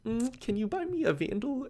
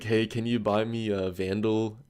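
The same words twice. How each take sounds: First: Much higher, coaxing little sigh first; imitating a girl sweetly asking for a free gun. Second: Said in the usual way. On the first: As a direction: coo it like a girl asking a favour. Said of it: "the girl would be like". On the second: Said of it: "he's like".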